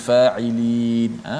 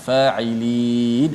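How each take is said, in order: Both takes have the same delivery.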